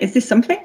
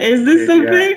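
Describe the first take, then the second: First: It is said as a genuine, open question. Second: It is said in a playful, parodying tone. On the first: They truly wanted the others' opinion. "at the time, you know, is this something was a genuine" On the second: It is a running joke now. "now we might say it in a little bit of a parody"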